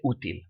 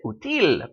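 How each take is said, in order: First: Útil stressed as U-til; stress on first syllable. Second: Útil wrongly stressed as u-TIL; stress on last syllable. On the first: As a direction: lean on the opening U of útil. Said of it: "we say útil". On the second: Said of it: "We should pronounce it útil". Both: Shown as a demonstration.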